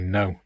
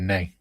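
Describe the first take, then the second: First: The vowel is a standard 'oh' sound. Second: The vowel is an 'ay' sound. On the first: "they don't say no" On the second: "In Saint Helens, they say nay"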